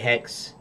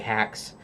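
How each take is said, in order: First: It is one syllable with an e vowel. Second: It is one syllable with an a vowel. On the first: "Some say hex" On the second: "Some say hax"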